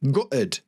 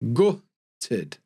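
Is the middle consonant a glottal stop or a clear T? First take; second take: glottal stop; clear T. First: The middle T is replaced by a glottal stop. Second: The middle T is pronounced clearly.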